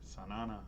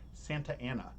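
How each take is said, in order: First: The name is run together into fewer syllables. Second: The name is said with every syllable full. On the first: The speaker sounds like a local. The speaker calls it right. "You're supposed to call it Sanana" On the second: The speaker sounds like an outsider to the area. The speaker calls it wrong. "you're not supposed to call it Santa Ana"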